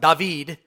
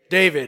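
First: The name has an Israeli Hebrew pronunciation. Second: The name has the familiar American pronunciation. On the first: "You go to Israel and you get your first tour guide and they start talking about" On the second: "we would say his name is David"

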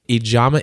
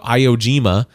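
First: The name is pronounced carefully and accurately. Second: The name is garbled with altered sounds. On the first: The speaker calls it right. "something that I practiced before" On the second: The speaker calls it wrong. "I didn't want to, you know"

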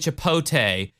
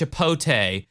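First: The L sound is left out. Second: The L sound is left out.

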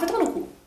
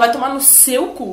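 First: It is said quickly, in passing. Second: It is said with strong emphasis.

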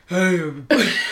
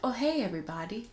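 First: The greeting sounds aggressive and forceful. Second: The greeting sounds casual and mild.

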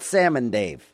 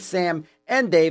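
First: Sam and run together like salmon. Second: The words Sam and are said clearly apart. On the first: The speaker calls it wrong. "not a salmon named Dave" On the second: The speaker calls it right. "It is the duo's name"

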